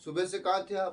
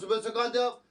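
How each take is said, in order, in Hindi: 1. सवाल शांत, सामान्य आवाज़ में बोला गया है। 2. सवाल ज़ोर से और तीखे अंदाज़ में बोला गया है।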